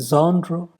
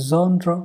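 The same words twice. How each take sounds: No difference in how they are said.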